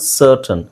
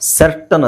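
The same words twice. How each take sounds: First: The first vowel sounds like 'ur'. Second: The first vowel sounds like 'eh'. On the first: The speaker calls it right. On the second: The speaker calls it wrong.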